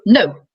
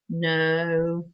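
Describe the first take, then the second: First: The no sounds firm and certain. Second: The no sounds weak and hesitant. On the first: There is no bargaining on this. The speaker calls it right. "And the whole energy, it's not even about raising your voice" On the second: The speaker can still be talked round. The speaker calls it wrong. "it's kind of really wishy washy"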